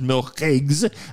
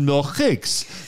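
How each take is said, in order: First: The last consonant is a voiced G sound. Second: The last consonant is a voiceless K sound. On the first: "Some would pronounce it Milchigs" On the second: "some would pronounce it Milchiks"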